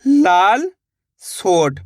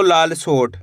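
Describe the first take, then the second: First: लाल drawn out rising, pause, then सोट falling; split in two. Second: Said in the usual way. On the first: Shown as a demonstration. Teacher showing the two parts, लाल and सोट sounded out apart. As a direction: read लाल and सोट as two separate items. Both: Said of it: "दोनों को मिला देंगे".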